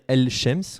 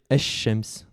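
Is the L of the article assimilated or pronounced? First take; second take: pronounced; assimilated. First: The L sound is clearly pronounced before sh. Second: The L disappears and the sh is doubled. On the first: The speaker calls it wrong. "au lieu de dire" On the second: The speaker calls it right. "on va dire"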